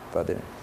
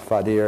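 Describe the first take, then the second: First: The middle consonant is a soft TH sound. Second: The middle consonant is a hard D sound. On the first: The speaker calls it right. "This D is pronounced DH" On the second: The speaker calls it wrong. "It's not Fadir"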